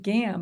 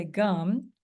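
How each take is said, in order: First: Gam with a full short A, as spelled; spelling pronunciation. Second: Gum with a schwa, an "uh" vowel; everyday pronunciation. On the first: Teacher explaining how she remembers the spelling, spelling pronunciation. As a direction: say gam with the vowel of "ham". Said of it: "I said gam". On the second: Teacher correcting herself on the third syllable, everyday pronunciation. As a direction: say gum like chewing gum, not gam. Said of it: "but we really say gum". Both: Shown as a demonstration.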